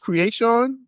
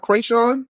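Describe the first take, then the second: First: The name is said like the word 'creation'. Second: The name is said like 'cray-shawn'. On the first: The speaker calls it right. "That that's how you pronounce it" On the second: The speaker calls it wrong. "It's not Krayshawn"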